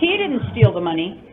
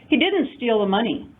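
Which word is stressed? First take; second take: he; didn't. First: The stress falls on he. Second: The stress falls on didn't. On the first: Someone else stole it. "I suspect that she did" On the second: He is being wrongly accused. "Stop accusing"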